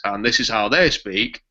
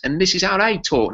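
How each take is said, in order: First: A light northern English accent on every word; a hint of a Yorkshire-style northern English accent. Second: Cockney accent, pitched higher; a quick mock Cockney impression; playful high Cockney accent. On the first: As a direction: speak it the way people in the north of England do. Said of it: "people in the north talk like this". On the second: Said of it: "That's like a Cockney". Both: Shown as a demonstration.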